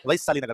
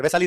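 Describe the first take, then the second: First: "वैशाली" with full ai glide, VAI-shali; corrected ai vowel. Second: "वैशाली" with a plain e, VEH-shali; wrong vowel. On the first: Teacher names the town rightly, "वैशाली" said VAI-shali. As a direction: open the first vowel of "वैशाली" into ai, pitched low. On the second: Teacher rejects the town's wrong name, "वैशाली" as VEH-shali. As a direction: say "वैशाली" as if spelt वेशाली. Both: Shown as a demonstration. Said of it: "वैशाली नहीं है, कौन सा नगर है".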